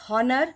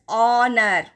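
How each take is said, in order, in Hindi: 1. यह शब्द एक सुनाई देने वाली h ध्वनि से शुरू होता है। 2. यह शब्द सीधे एक स्वर ध्वनि से शुरू होता है। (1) "not as honor" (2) "but as honor"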